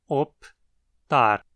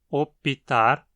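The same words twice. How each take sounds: First: No vowel is inserted between p and t. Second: An extra vowel is inserted between p and t. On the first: "essa palavra só tenha duas sílabas" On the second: "foneticamente ser comum incluir uma vogal epentética"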